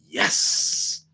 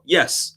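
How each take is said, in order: First: The word ends with a long s. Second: The word ends with a short s. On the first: The agreement is enthusiastic. The speaker calls it right. "you got to add the other S's" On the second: The agreement is only lukewarm. The speaker calls it wrong. "That's just like, oh, yes"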